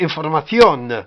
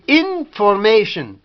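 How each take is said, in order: First: It is pronounced the Spanish way. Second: It is pronounced the English way, with sh. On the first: "En espagnol, c'est information" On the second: "En anglais, on dit information. Shin"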